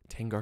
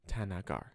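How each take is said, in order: First: The name is said with two syllables. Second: The name is said with three syllables. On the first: The speaker calls it wrong. "omitting the extra the middle A" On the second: The speaker calls it right. "but it's Tanagar"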